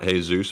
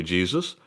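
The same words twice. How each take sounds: First: Jesus said as hay-ZOOS; Spanish pronunciation. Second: Jesus said the English way, JEE-zus; English pronunciation. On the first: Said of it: "Spanish accent". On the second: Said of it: "not Jesus, apparently". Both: Shown as a demonstration.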